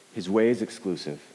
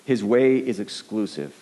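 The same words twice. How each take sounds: First: Said in the usual way. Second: Slow, weighty, each word set down; slow emphatic statement. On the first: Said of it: "repeats the thesis plainly". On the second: Shown as a demonstration. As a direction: lean on way, a touch louder and slower. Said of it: "repeats the thesis slowly".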